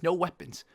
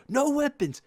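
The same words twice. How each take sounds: First: Said in the usual way. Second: High, loud angry yell; imitated coach yell. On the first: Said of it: "and says". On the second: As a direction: bark it at the kids who missed the order. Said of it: "so he yells at us".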